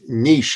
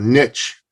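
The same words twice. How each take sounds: First: It is pronounced the speaker's own, non-American way. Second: It is pronounced the American way.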